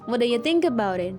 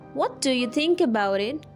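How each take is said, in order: First: What do you is squeezed together into a reduced form. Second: Each word is said fully and separately. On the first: "you can say" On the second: "instead of asking like"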